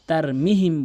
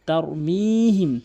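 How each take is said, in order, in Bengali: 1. m-এর পরের স্বরটি ছোট। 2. m-এর পরের স্বরটি টানা। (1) "অধিকাংশ লোক কিন্তু এখানে তার মিহিম বলে" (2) "মিম কি এখানে এক আলিফ টেনে পড়তে হবে"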